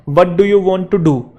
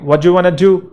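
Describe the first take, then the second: First: Every word is said fully and separately. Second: The words are run together and shortened. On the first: "जैसे है" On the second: "तो ऐसे बोलेंगे"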